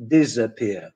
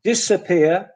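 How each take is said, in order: First: DISAPPEAR with z, diz-uh-PEER; Polish-style Z error. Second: DISAPPEAR with s, diss-uh-PEER; English S in DISAPPEAR. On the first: Teacher showing what not to say, wrong z sound. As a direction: mispronounce DISAPPEAR with a buzzing z. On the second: Teacher modelling English for Polish learners, correct s sound. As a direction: say DISAPPEAR with a hissing s. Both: Shown as a demonstration. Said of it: "is not disappear".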